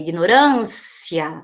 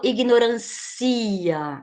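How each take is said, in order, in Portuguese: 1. O i e o a finais se juntam em uma só sílaba. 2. O i e o a finais são sílabas separadas. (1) "Esse aqui é um ditongo. Não separa" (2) "Eu não falo ignorância"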